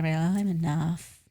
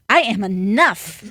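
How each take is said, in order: First: It is said casually, without conviction. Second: It is said intensely, with passion.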